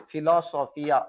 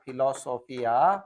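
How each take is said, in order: First: Said in the usual way. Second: Slow dictation. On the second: Shown as a demonstration.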